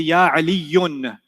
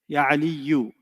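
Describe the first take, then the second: First: The name ends with an added n sound. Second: The name ends on a vowel, no n. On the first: The speaker calls it wrong. "I don't say" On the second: The speaker calls it right. "I say"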